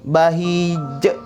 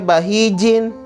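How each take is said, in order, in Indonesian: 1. Kata ini berakhir dengan konsonan yang dipantulkan (qalqalah). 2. Kata ini berakhir dengan bunyi vokal tambahan. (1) "maka dibaca bahij" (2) "Tidak boleh dibaca bahijin"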